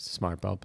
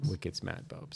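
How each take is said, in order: First: Said in the usual way. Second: Put-on Boston accent, dropped R in smat; a hint of a Boston accent on Wicked smat, no R; lightly put-on Boston accent, smat said without the R; mock Boston accent. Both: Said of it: "I can't do a Bostonian accent".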